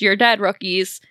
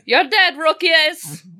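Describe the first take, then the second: First: It is said in the speaker's own plain accent. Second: It is said in a put-on Bulgarian accent. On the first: The speaker calls it wrong. "I forgot to do it in the correct accent" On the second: The speaker calls it right.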